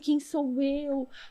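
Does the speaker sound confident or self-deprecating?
self-deprecating. It sounds timid and self-deprecating. The speaker downplays their own worth. The speaker calls it wrong. "humildade interna, que não é assim, ai"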